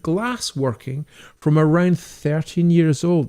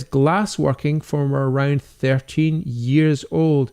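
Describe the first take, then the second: First: Slower and admiring, savouring each word; impressed echo. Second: Said in the usual way. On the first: Real, not acted. Echoing a viewer's comment back to him, impressed and slow. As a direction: repeat it like it's something to marvel at. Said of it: "that is brilliant". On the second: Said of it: "Nick Moore says".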